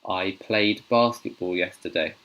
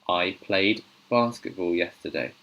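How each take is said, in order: The two takes are said the same way.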